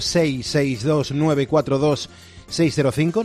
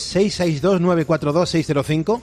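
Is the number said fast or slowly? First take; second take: slowly; fast. First: The number is said more slowly. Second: The number is said at normal speed.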